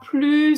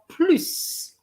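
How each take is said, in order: First: The final s sound is silent. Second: The final s sound is pronounced. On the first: It is used in a negative sentence. "He didn't pronounce the s" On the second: It means in addition. "you're going to add the s"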